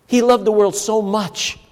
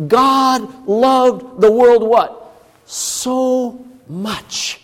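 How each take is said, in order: First: Said in the usual way. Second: Slow "world", then "so much" high and drawn out; superlative so much. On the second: Shown as a demonstration. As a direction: build up to "so much" like a reveal. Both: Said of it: "So we could say".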